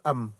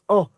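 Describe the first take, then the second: First: It is said as a clear vowel plus m. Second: It is said as a nasal vowel without m. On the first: This is how the letters are read in Hebrew. The speaker calls it right. "mais en hébreu, ça se prononce am" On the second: This is how the letters are read in French. The speaker calls it wrong. "en français, le A M se prononce en"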